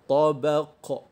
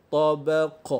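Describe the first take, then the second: Both takes have the same delivery.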